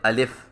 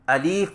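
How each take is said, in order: First: The second vowel sounds like e. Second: The second vowel is a long i. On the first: "लाम है इसको मजहूल पढ़ते अलिफ, यह भी गलत है" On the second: "या से बदल कर पढ़े अलीफ... यह भी गलत है"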